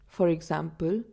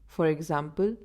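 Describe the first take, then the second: No difference in how they are said.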